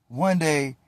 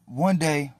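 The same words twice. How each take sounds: The two takes are said the same way.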